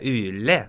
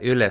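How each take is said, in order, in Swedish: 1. Det uttalas med en rikssvensk intonation. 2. Det uttalas med en finsk intonation. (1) "en rikssvensk person skulle säga" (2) "det är egentligen ett finskt ord med en finsk intonation"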